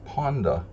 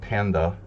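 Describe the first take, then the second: First: The first vowel is a rounded 'o' sound. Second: The first vowel is an open 'a' sound. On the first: The speaker calls it right. "in Hungarian, when you say the word Ponda, it's Ponda" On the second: The speaker calls it wrong. "it's not panda"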